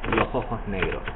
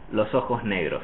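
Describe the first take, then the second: First: Both the s and the j sound like h. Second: The s and j keep their full sounds. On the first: "I also will pronounce the J of ojos like an H" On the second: "So I will say"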